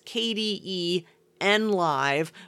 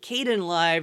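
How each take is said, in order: First: The first part is spelled out as letters. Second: The first part is said as one syllable. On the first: This is the habitual way the speaker says it. "in my head, I still pronounce it as" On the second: This is the way other people say it. "I'm training myself to call it"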